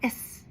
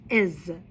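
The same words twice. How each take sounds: First: The word ends with a hissing s sound. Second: The word ends with a buzzing z sound. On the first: The speaker calls it wrong. "it's not is" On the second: The speaker calls it right. "it's is. So it makes that z sound"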